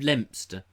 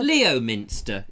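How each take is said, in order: First: The name is said with two syllables. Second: The name is said with three syllables. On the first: The speaker calls it right. "instead of Lempster" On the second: The speaker calls it wrong. "Leominster instead of Lempster"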